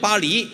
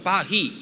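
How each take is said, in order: First: It is said with plain Mandarin pronunciation. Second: It is said with a French-style pronunciation. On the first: This is the Chinese transliteration of the name. "人家法语说那个地名不叫巴黎" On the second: This is how the French say the name. "叫巴黎"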